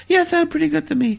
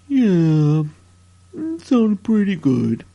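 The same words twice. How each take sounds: First: Said in the usual way. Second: Much lower and slow, lightly put-on; a mock gruff reply to the question; put-on deep voice. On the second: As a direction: drop the voice low and drag it out. Billy answers in a put-on voice.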